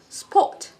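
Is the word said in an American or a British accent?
British. A long rounded O vowel with no R sound. "British accent, you don't say spot, you say sport"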